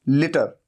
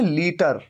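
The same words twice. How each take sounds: First: The first vowel is short. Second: The first vowel is long. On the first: "ल पे छोटी ई की मात्रा, लि" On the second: "हिंदी में हम कहते हैं लीटर"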